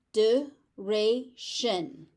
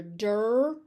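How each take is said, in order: First: "Duration" very slowly as duh-RAY-shun; syllable by syllable. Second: "duration" as dur-RAY-shun, with r-coloured first syllable; alternative pronunciation. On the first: Teacher breaking the word down, syllable by syllable. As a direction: separate each syllable of "Duration", first one "duh". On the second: Teacher offering the other accepted form, r in first syllable. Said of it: "You may also hear". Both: Shown as a demonstration.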